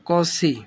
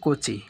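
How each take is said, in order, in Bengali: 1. নামটি s ধ্বনি দিয়ে উচ্চারিত হয়। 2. নামটি ch ধ্বনি দিয়ে উচ্চারিত হয়। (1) "কসি, নট কিন্তু কোচি" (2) "নট কিন্তু কোচি"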